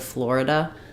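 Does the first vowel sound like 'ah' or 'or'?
or. The first vowel is an 'or' sound. This is how most of the US says it. "instead of Florida"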